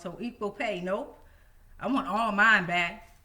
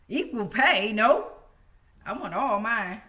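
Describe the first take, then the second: First: It is said at normal volume. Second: It is said very loudly.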